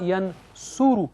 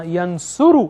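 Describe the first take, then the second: First: ینصرو drawn out very slowly, the o on the third letter stretched; slow o demo. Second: ینصرو said with a clear o sound on the third letter, ending on a fall; o sound shown. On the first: Teacher slowing down so students hear the o, ینصرو very slow. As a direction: spell out ینصرو slowly, leaning on the o. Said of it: "او کی آواز جو ہے وہ تیسرے letter پہ". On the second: Teacher showing students the o vowel, says ینصرو clearly. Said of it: "یہاں پر او کی آواز آ رہی ہے تیسرے letter پر". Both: Shown as a demonstration.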